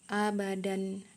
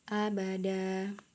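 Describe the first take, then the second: First: The word ends with a final n sound. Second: The word ends on a lengthened vowel, no n. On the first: The reading continues without stopping. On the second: The reader stops at this word.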